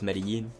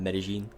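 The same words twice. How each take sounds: First: The double L sounds like a y. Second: The double L sounds like a j. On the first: It follows the Caribbean way of speaking. "for me it's always Medellin" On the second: It follows the way people from Spain speak. "rather than Medellin"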